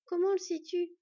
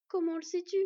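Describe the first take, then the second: First: High, loud worried challenge; urgent questioning. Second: High, loud insistent question. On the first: Anxious girl doubting her friend's reassurance, urgent questioning. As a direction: demand to know, pitched up. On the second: Anxious girl asking once more for proof, insistent questioning. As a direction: press for an answer, voice raised. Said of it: "demanda une nouvelle fois Sylveg". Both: A narrator's reading.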